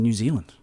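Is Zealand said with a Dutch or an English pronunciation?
English. Zealand is said with the usual English pronunciation. The speaker calls it wrong. "we're mispronouncing New Zealand"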